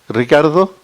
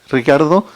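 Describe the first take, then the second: No difference in how they are said.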